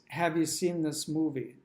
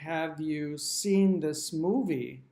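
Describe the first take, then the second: First: The words are run together and reduced. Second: The words are said separately and fully. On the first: "The way I would say it is" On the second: "if I were to ask you"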